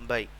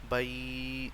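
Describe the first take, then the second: First: The final sound is short and soft. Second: The final sound is stretched out long. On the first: The speaker calls it right. "हम इसे पढ़ेंगे" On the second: The speaker calls it wrong. "ये तरीका कार गलत होगा"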